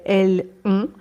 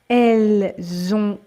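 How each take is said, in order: First: No z sound links the two words. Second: A z sound links the two words.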